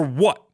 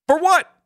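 First: Said in the usual way. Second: High, louder disbelieving repeat; pitched-up exasperated demand; incredulous for what. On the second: Real, not acted. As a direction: throw the question back, astonished. Repeats the question much more forcefully.

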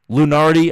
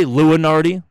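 First: LUNARDI in three syllables, loo-NAR-dee; common pronunciation. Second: LUNARDI with an extra syllable, loo-uh-NAR-dee; own pronunciation. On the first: Podcaster showing how most people say Lunardi, as loo-NAR-dee. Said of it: "is how a lot of people say it". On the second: Podcaster showing listeners how he says Lunardi, as loo-uh-NAR-dee. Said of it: "I say Lunardi". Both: Shown as a demonstration.

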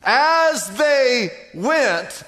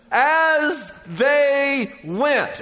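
First: Very slow, stretched and weighted; slow emphatic repeat. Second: Very slow, every word stretched; slow emphatic reading. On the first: Preacher repeating the key phrase, slow and stretched. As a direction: let each word land heavily. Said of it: "'cause that's faith". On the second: Preacher slowing right down on the key verse. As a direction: drag out each word to stress it. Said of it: "you ought to circle that". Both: Shown as a demonstration.

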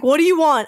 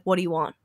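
First: Louder, higher, defensive demand; guarded, louder challenge. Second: Said in the usual way. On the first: Retold or imitated. Confronting the strange men at the store, louder and defensive. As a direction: put your guard up and fire it at them. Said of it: "my guard was up". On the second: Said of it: "I was like".

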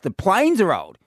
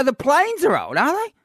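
First: Said in the usual way. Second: Higher, sarcastic rising question; sarcastic retort, pitch rising to the end; mocking disbelief. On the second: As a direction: throw his words back with scorn. Mocking the bloke's airline complaint.

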